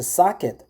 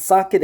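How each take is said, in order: First: "socket" with an open AH, like "SAH-kit"; "socket" said "sah-kit", open first vowel; North American pronunciation. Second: "socket" with an O vowel, like "soh-ket"; "socket" said "soh-ket", rounded first vowel; Korean-style pronunciation. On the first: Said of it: "American pronunciation or the Ca-, Canadian pronunciation, which is a socket". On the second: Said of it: "many Koreans pronounce socket as a socket". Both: Shown as a demonstration.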